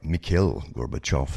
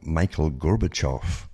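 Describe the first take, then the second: First: The name is said the way natives say it. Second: The name is said in an anglicized way.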